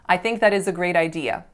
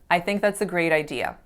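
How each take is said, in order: First: 'That is' is said as two full words. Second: 'That is' is shortened to one syllable. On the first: The speaker calls it wrong. "That sounds very robotic and unnatural" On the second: The speaker calls it right. "Instead, you're going to hear"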